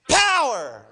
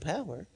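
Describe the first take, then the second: First: The word is said with explosive force. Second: The word is said flatly, without force. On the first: The word conveys great, dynamic strength. The speaker calls it right. "you got to have that explosiveness" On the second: The word sounds ordinary and unimportant. The speaker calls it wrong. "you can't be reading that like"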